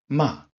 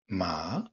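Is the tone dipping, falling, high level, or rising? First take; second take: falling; rising. First: The pitch falls sharply from high. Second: The pitch rises from mid to high. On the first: "quatrième ton, ton qui part de très haut et qui tombe" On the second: "Deuxième ton, montant"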